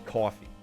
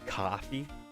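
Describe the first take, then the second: First: The word is said in an East Coast accent. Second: The word is said in a general accent. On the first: This is how it is said on the East Coast. "I say coffee because, like, here on the East Coast, we say that" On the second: This is how it is said elsewhere. "In other places, you would say coffee"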